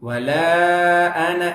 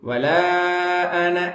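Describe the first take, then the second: No difference in how they are said.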